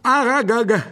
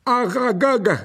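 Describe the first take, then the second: First: High, even louder second call; monster spider shout. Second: High, loud calling cry from a giant spider; monster spider shout. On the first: Giant spider calls its master a second time, shouting. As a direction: call the name again, pushing harder. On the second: Giant spider calls out to its master, loud and high. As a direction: bellow the name like a huge spider. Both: Acted. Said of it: "cria le monstre".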